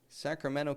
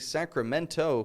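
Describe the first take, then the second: First: The T after the N is dropped. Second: The T after the N is clearly pronounced. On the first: The speaker calls it right. "make sure you can say it right" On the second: The speaker calls it wrong. "I didn't say Sacramento"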